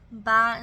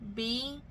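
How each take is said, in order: First: The syllable sounds like 'bye'. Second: The syllable sounds like 'bee'. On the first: The speaker calls it wrong. "you think B I makes that Y sound" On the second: The speaker calls it right. "instead of B"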